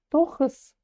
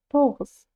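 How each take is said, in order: First: The middle consonant is a voiceless rasping h. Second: The middle consonant is a voiced rasping g. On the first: "Скажите через букву «х»" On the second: "Букву «х» более звонко, и у вас получится звук «г»"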